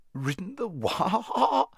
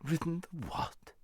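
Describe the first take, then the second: First: High neighing cry on a drawn-out WHA; indignant horse neighing the words; horse's neigh. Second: High, soft contemptuous retort; disbelieving, scornful question, pitched up; extreme contempt. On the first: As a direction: let WHA break into a long whinny. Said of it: "came out in a sort of neigh". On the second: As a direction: query it with utter disdain. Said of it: "retorted the horse with extreme contempt". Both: A narrator's reading.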